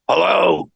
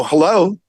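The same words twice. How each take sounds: First: Put-on, higher phone hello; drawn-out fake-voice greeting; disguised voice. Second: Said in the usual way. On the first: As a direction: disguise your voice as you answer the phone. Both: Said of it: "disguise my voice the second time".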